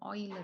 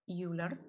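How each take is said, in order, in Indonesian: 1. Nama itu diucapkan dengan cara Jerman. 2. Nama itu diucapkan dengan cara Inggris. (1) "orang Jerman. Ternyata pengucapannya adalah Euler" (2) "kalau English speaking nyebutnya Euler"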